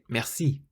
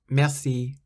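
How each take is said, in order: First: The stress is on the last syllable. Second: The stress is on the first syllable. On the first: The speaker is French. "the French were saying it merci" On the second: The speaker is English. "The English people were saying it merci"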